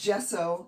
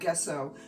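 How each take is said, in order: First: The word begins with a soft j sound. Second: The word begins with a hard g sound. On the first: The speaker calls it right. "it's gesso" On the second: The speaker calls it wrong. "not gesso. So I'm not guessing anymore"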